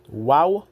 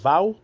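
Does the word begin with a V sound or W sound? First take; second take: W sound; V sound. First: The word begins with a W sound. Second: The word begins with a V sound. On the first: The speaker calls it right. "Was spoken wow" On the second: The speaker calls it wrong. "not va or vow"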